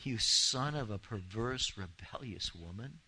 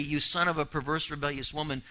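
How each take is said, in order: First: Shocked, slow; echoing a cruel father in disbelief; slow disbelieving repeat. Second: Said in the usual way. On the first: Shown as a demonstration. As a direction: repeat the insult slowly, dropping to a hush on woman. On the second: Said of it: "in verse thirty".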